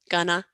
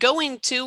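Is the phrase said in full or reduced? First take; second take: reduced; full. First: The ing and t drop; the vowel becomes uh. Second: Every sound of both words is fully pronounced.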